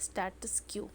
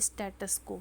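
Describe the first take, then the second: First: The second word sounds like 'kyoo'. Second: The second word sounds like 'ko'. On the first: "कई लोग इसे pronounce करते हैं स्टेटस क्यू" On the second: "बोलते हैं हम लोग स्टेटस को"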